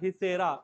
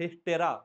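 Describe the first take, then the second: First: The word is said without a t sound. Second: The word is said with a t sound. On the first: The speaker calls it right. "टी silent है" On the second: The speaker calls it wrong. "Not हिस्टेरा। हिस्टेरा बोलने पे लोग गंवार समझेंगे।"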